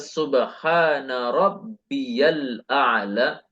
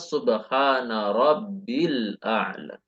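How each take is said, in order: First: A 'ya' syllable is heard after 'rabbi'. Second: No 'ya' syllable is heard after 'rabbi'.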